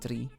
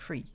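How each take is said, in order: First: The word begins with a d sound. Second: The word begins with a th sound. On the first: "almost like a D" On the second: "a T H sound"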